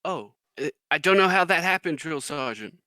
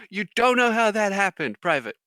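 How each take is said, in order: First: Lightly voiced clueless recruit, quick and higher; recruit private. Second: Loud, high incredulous mock sergeant; drill sergeant. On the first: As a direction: imitate a private pleading ignorance to his sergeant. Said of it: "you hear the private". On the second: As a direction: fire the excuse back at the recruit in disbelief. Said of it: "the drill sergeant goes".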